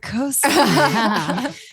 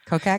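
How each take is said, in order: First: The name has an S sound in the middle. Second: The name has a K sound in the middle. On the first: The speaker calls it right. "Kosak, even better" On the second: The speaker calls it wrong. "am I saying that right?"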